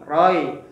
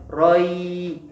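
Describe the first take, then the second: First: The vowel glide is cut short. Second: The vowel glide is held long. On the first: The speaker calls it wrong. "tidak boleh bacanya" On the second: The speaker calls it right. "linnya ini kita baca panjang"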